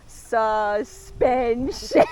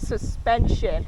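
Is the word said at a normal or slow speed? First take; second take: slow; normal. First: The word is said slowly and drawn out. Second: The word is said at a normal speed.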